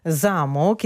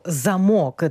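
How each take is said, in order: First: «Замок» said ZA-mok, stress on the first syllable. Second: «замок» said za-MOK, stress on the last syllable; stress on second syllable. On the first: Ukrainian teacher showing the castle word, stress on first syllable. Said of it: "із наголосом на перший склад". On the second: Ukrainian teacher showing the lock word, stress on second syllable. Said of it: "наголос у нас перемістився на другий склад". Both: Shown as a demonstration.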